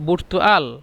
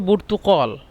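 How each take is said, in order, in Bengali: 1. মাঝের ব্যঞ্জনটি একটি হামজা। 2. মাঝের ব্যঞ্জনটি একটি গভীর q ধ্বনি। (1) "এই কফকে হামজা বলে" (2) "এটা হলো বুর্তুকল"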